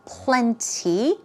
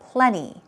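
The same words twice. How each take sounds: First: The T sound is clearly pronounced. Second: The T sound is dropped, like plenny. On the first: "You could stress that T sound by saying plenty" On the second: "make it very soft, more like a P L E N N Y"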